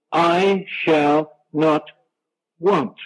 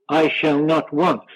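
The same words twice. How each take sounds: First: "I shall not want" spaced out very slowly, each word weighted; emphasized slowly. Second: Said in the usual way. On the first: Shown as a demonstration. Preacher stressing the promise to his congregation, slow and emphatic. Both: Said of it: "I want to emphasize the statement".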